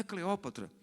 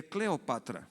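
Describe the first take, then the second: First: Cleópatra with the stress on the ó, CLE-Ó-pa-tra; wrong stress Cleópatra. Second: Cleopatra stressed on pa, cle-o-PA-tra, said slowly; correct stress Cleopatra. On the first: Guide correcting the pastor, quoting the wrong Cleópatra with stress on ó. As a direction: say Cleópatra stressing the second syllable, the Brazilian way. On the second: Egyptian guide correcting the pastor, Cleopatra stressed on pa, slowly. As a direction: give Cleopatra the weight on pa, unhurried. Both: Retold or imitated. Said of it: "Ela disse".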